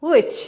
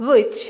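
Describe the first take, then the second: Both takes have the same delivery.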